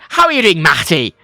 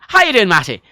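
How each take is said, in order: First: It is said in an English accent. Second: It is said in a Dublin accent. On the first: "Matty in England, it's like" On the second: "in a dub accent"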